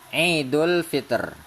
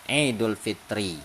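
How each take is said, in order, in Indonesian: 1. Kata terakhir berakhir dengan konsonan mati. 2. Kata terakhir berakhir dengan vokal i pendek. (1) "cara baca yang kedua yaitu dengan mematikan huruf yang terakhir" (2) "kata yang terakhirnya itu harus berbaris kasroh sehingga bacaannya Idul Fitri"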